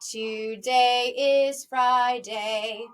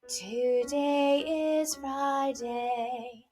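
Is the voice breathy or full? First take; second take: full; breathy. First: The voice is full and speech-like, from the chest. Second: The voice is light, pretty and breathy. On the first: The speaker calls it right. "that's how I know I'm still using my chest voice" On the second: The speaker calls it wrong. "this pretty sound, which really is more of a breathy sound"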